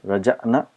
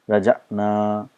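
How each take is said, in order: First: The vowel in the last syllable is short. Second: The vowel in the last syllable is long. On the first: "so we have to have a short sound" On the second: "and here we need to have a long sound"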